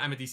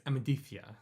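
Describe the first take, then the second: First: The middle consonant is an 's' sound. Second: The middle consonant is a 'th' sound. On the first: The speaker calls it wrong. "No, it's not" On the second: The speaker calls it right.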